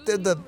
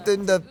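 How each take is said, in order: Both takes have the same delivery.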